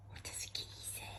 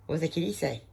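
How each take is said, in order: First: Soft secret whisper. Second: Said in the usual way. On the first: Acted. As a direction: breathe the question in a whisper. Whispered retake to the dog.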